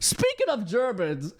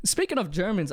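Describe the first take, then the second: First: Slow, hammed-up transition; playful, drawn-out segue delivery; mock segue. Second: Said in the usual way. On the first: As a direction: announce the topic change with exaggerated deliberateness. Repeats it as joking segue.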